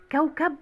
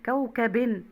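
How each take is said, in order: First: Said in the usual way. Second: كوكب ending in -in; تنوين بالكسر. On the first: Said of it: "الكلمة، وعايز هنا جايبها بالتنوين". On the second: Shown as a demonstration. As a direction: add a clear -in to كوكب. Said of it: "بالكسر". (نطق كوكب بكسرتين في آخرها)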